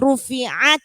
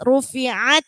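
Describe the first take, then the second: The two takes are said the same way.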